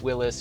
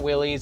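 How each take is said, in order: First: The name ends with an 'iss' sound. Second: The name ends with an 'eez' sound. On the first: The speaker calls it right. "it's Willis" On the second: The speaker calls it wrong. "I know it's not Willie's"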